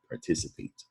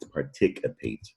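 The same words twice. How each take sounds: First: The middle C is said as an S sound. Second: The middle C is said as a K sound. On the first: The speaker calls it right. "C is a soft C, an S sound when it's followed by an I" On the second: The speaker calls it wrong. "It's not participate"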